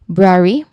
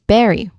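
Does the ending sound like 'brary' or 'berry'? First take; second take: brary; berry. First: The ending starts with a tight 'br' cluster. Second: The ending has a vowel between 'b' and 'r'. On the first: The speaker calls it right. "like the correct pronunciation. Second part of the word" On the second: The speaker calls it wrong. "here in the mispronounced word, there is berry"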